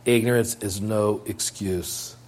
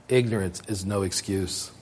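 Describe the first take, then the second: First: Slow and measured, "ignorance" falling; preacher driving the rule home, slowly; slow emphatic. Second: Quiet and low, stress on "ignorance"; preacher stating the rule, quietly; soft statement. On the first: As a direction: weigh each word slowly. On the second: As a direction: say it softly and plainly. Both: Shown as a demonstration. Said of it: "repeated maxim".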